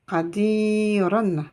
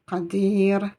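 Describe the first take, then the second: First: The word ends with an added 'an' sound. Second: The word ends cleanly on the 'r' sound. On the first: "se termine par la lettre ra avec tanwin on" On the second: "je le prononcerai comme s'il y avait une soukoun"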